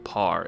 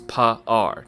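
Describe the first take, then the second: First: The vowel is short, forming one syllable. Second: The vowel is drawn out into two syllables. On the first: The speaker calls it wrong. "it's not one syllable par" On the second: The speaker calls it right. "two syllables"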